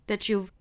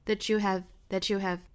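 First: Have is contracted onto you. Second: Have is said as a separate word. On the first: "跟这个 you 是要做缩约的" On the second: "我们也可以分开读"

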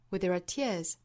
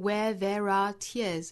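First: The first three words are said short and quick. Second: The first three words are said slowly and fully. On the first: The speaker calls it right. "而是非常短快的" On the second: The speaker calls it wrong. "注意不是 where there are tears"

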